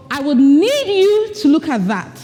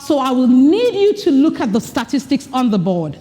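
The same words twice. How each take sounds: First: Gentler, released "need" on the out-breath; softened, easy request; less emphatic. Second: Firm, emphatic "you" spoken on the in-breath; strong, powerful request; powerful delivery. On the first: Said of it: "make the point less emphatic". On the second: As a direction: speak it with full breath behind it. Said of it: "So you speak with that breath in". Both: Shown as a demonstration.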